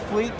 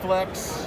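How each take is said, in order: First: It has a long ee and ends in ks. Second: It has a short e and ends in ks. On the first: "Mostly Fleeks" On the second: "sometimes Flex"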